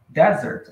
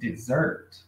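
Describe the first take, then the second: First: The stress is on the first syllable. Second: The stress is on the second syllable. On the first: It means a sandy wasteland. The speaker calls it wrong. "se você fizer a entonação mais forte na primeira sílaba" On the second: It means the sweet course. The speaker calls it right. "entonação na segunda sílaba"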